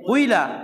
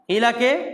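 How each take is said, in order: First: The first vowel is rounded toward u. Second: The first vowel is a plain i sound. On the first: "জেরকে পেশের মতো করে পড়া" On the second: "কিলাকে কুইলা"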